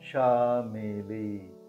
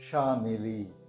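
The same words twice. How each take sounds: First: The name is said slowly. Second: The name is said at normal speed.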